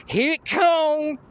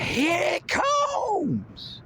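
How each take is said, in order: First: High, loud, slow yell to the crowd; yelled warning. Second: Very high, stretched-out call; drawn-out yell. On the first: Pumping up the crowd, he yells a high loud slow warning. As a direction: bellow it out to pump up the crowd. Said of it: "yelling things too". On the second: Hyping the crowd, he stretches out a high, slow call. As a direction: drag the yell out long and high. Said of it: "I'll be yelling things like". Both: Pretend.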